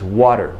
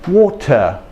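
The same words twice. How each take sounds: First: It is said with an American tapped T. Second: It is said in an English dialect.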